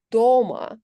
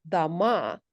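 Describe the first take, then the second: First: Дома stressed on the first syllable, DO-ma. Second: Дома stressed on the second syllable, da-MA; Betonung auf zweiter Silbe. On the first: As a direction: hit the DO of дома louder, letting -ma fall away. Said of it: "stress in a word is the only difference". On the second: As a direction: say дома with the weight on the final a. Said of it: "stress on the second syllable". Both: Shown as a demonstration.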